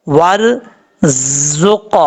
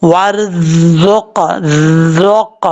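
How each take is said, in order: First: ورزق with a clear hissing ز, tongue tip held back from the teeth; slow drawn-out ورزق, the ز buzzing with a sharp whistle; correct zaa with whistle. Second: ورزق with the tongue touching the teeth, so ز turns into ذ without any whistle; wrong zaa, no whistle. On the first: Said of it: "اب یہ زا پڑھا جا رہا ہے، بالکل clear". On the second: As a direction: drag out ورزق with a dull ذ sound and no hiss. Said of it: "touch کر کے پڑھیں گے تو پھر کیسے پڑھیں گے؟". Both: Shown as a demonstration.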